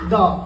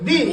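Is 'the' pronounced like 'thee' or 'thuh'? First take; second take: thuh; thee. First: The word ends in a short 'uh' vowel. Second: The word ends in a long 'ee' vowel. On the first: The next word begins with a consonant sound. "First letter డి ఉంది కదా, మరి టిహెచ్ఈని ఏమనాలి" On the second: The next word begins with a vowel sound. "ఈ vowels ముందు మనం టిహెచ్ఈ ఉంటే మనం ఏ విధంగా పలకాలి ది దిగా పలకాలి"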